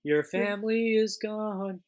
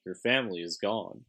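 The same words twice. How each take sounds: First: Much higher sing-song taunt; high mocking. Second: Said in the usual way. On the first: Shown as a demonstration. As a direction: toss the line up high and mocking.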